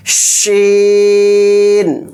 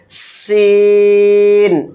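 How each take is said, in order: First: شین with a long, broad sh, drawn out slowly; broad sh sound. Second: سین with a long thin whistling s, drawn out. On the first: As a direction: push شین out full and slow. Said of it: "اور اس کا sound اس طرح سے آئے گا". (شین کو کھلی آواز میں لمبا) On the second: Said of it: "اس کا ساؤنڈ بالکل باریک سیٹی کے ساتھ ہے". (سین باریک سیٹی کی آواز میں) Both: Shown as a demonstration.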